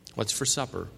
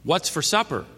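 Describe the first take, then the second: First: It is said at a normal volume. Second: It is said somewhat louder than normal. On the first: "in a normal voice" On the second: "a little louder"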